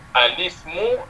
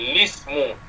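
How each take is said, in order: First: The word begins with a short a vowel. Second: The word begins directly with an l sound. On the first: "Hamzah wasal baca baris ha? baris atas" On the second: "ataupun lismu"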